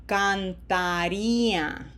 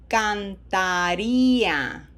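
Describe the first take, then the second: No difference in how they are said.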